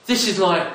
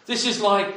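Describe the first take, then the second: No difference in how they are said.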